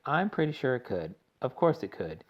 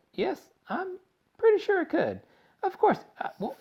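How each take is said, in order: First: Said in the usual way. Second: Very high squeaky musing; Wonka's odd squeak. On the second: A narrator's reading. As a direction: squeak it out uncertainly.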